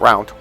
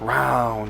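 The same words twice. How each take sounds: First: The vowel is short and clipped. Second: The vowel is drawn out long. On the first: The speaker calls it wrong. "It's not round" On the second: The speaker calls it right. "I'm elongating my vowels"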